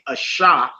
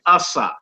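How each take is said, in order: First: The middle consonant is a sh sound. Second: The middle consonant is an s sound. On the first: The speaker calls it wrong. "you wouldn't say asha" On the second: The speaker calls it right. "You say asa. S"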